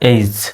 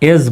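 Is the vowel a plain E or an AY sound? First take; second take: AY; E. First: The vowel is a gliding AY sound. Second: The vowel is a short plain E. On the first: The speaker calls it right. "সঠিক উচ্চারণ হলো এইজ" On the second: The speaker calls it wrong. "যদিও বা আমরা এজ বলি"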